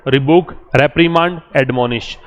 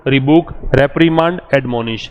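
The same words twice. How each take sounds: The two takes are said the same way.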